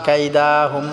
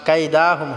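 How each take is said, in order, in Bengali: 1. 'da' স্বরধ্বনিটি টেনে লম্বা করে পড়তে হবে। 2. 'da' স্বরধ্বনিটি টেনে লম্বা করে পড়তে হবে।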